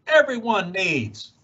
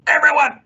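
First: Said in the usual way. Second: "everyone" hit high and loud; stressed everyone. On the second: A narrator's reading. Onceler insisting to the Lorax, "everyone" punched high and loud. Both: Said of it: "I got terribly mad".

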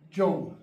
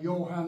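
First: "John" said with an English J sound. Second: "Johann" said with a Y sound, yo-hahn; German Johann. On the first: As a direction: clip "John" short with a hard English J. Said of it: "Do you see the difference?". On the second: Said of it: "That's pronunciation, like Johann and John". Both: Shown as a demonstration.

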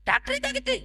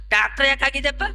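First: Soft, very high falsetto; high-pitched mimicry of the retort; mocking echo. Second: Said in the usual way. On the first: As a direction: parrot the question in a squeaky-high little voice. Retort repeated in put-on voice.

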